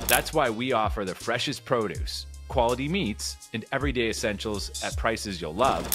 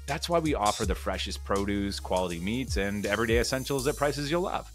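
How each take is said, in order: First: It pauses at every comma in the list. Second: It flows through the commas without pausing. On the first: It sounds like it is being read from a script. The speaker calls it wrong. "sounds like I'm reading. I played every comma" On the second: It sounds like natural, off-the-cuff conversation. The speaker calls it right. "I would eliminate those commas and talk the way I talk"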